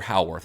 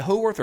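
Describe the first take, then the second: First: Howarth said as HOW-worth; first-syllable HOW. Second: Howarth said as HOE-worth; first-syllable HOE. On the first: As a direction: say Howarth to rhyme its start with "cow". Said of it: "How do you say it?". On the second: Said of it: "Is it Howarth or Howarth?". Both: Shown as a demonstration.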